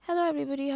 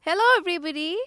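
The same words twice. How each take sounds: First: The greeting is said softly, without projection. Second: The greeting is said loudly and clearly, projected. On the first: Only a few people in the room hear it. The speaker calls it wrong. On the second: Everyone in the room hears it. The speaker calls it right.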